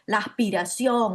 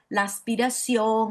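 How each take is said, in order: First: The s is aspirated. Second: The s is fully pronounced. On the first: It is a casual, local way of speaking. "no diría" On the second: It is a careful, formal way of speaking. "me cuidaría más y diría"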